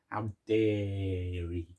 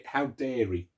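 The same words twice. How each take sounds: First: Slow, drawn-out How dare he in a Jay Blades voice; Jay Blades impression. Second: Said in the usual way. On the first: Telling the milkman joke in a Jay Blades voice. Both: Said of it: "Jay Blaze, yeah?".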